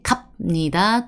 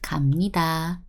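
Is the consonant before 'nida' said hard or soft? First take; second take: hard; soft. First: The consonant before nida is a hard b. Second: The consonant before nida is a soft m. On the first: The speaker calls it wrong. "we don't say 갑니다. Tough to pronounce" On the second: The speaker calls it right. "We want it soft"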